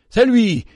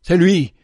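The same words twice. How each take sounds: First: Much higher, loud scream of recognition; shrill cry. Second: Loud, high startled cry. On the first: Old man cries out again at the child, even higher. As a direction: scream it, terror rising. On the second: Old man recognises the child, crying out in shock. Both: Acted. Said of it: "et poussa un cri".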